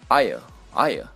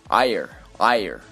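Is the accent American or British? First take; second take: British; American. First: The r after the vowel is silent. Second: The r after the vowel is clearly pronounced. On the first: "英式发音" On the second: "我会用美式发音读出来"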